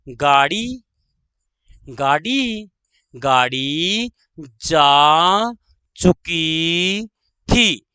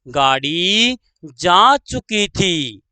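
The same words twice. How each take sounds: First: Very drawn-out, word by word; slow dictation. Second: Said in the usual way. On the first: Shown as a demonstration. Teacher dictating the train example, slow dictation. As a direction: stretch each word, pause before the last.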